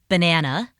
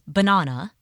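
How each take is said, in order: First: It is said with an American pronunciation. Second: It is said with an Australian pronunciation. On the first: "the pronunciation of banana" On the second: "which was banana"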